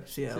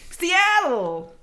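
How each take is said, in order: First: Much lower, soft and mopey; moping depressed grunge voice. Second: High, loud, excited Seattle. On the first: Retold or imitated. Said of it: "Unless you're [name]". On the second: Shown as a demonstration. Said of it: "you have to say it with excitement".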